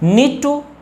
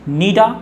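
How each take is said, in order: First: The word 'to' is pronounced in full. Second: The word 'to' is reduced to 'a'. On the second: "so नीड टू is also नीड, नीडा"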